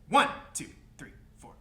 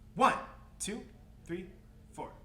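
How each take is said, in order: First: The count is at a quicker speed. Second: The count is at a slower, moderate speed. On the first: "Let's go faster" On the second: "Let's try it one more time"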